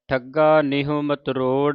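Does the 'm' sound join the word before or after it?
after. The 'm' sound starts the following word. "ਜਿਹੜਾ ਵਿਸਰਾਮ ਹੈ ਮਤਰੋੜ ਤੇ"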